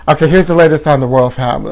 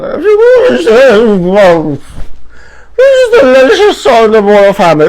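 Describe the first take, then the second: First: Said in the usual way. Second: Belted high and loud like a dramatic news host; big announcer cry. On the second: Acted. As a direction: scream the headline to the crowd. Announcer-style repeat of headline.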